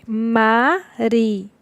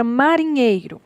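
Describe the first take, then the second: First: "marinheiro" split into ma, ri, nhei, ro with pauses; syllable by syllable. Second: Said in the usual way. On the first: Shown as a demonstration. Teacher showing the syllable division, "marinheiro" broken into four spaced syllables. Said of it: "E a divisão é". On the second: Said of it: "Temos a palavra marinheiro".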